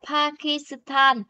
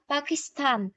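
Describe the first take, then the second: First: The word is said slowly and fully. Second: The word is said quickly and compressed. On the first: The speaker calls it wrong. "Ở đây người ta không đọc là Pakistan" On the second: The speaker calls it right. "nhưng mà nó đọc sẽ nhanh đó"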